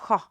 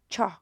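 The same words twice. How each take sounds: First: It begins with an 'h' sound as in hotel. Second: It begins with a 'ch' sound as in church. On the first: The speaker calls it right. "It's cho, as in hotel" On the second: The speaker calls it wrong. "might think it's ch, cho"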